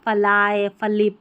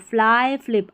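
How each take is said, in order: First: A full vowel separates the f and l. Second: The f and l join with no vowel. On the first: The speaker calls it wrong. "अगर हम इसको आधा नहीं करेंगे ना एफ को ... तो गलत उच्चारण हो जाएगा" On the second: The speaker calls it right. "एफ एल को फ्ल पढ़ा"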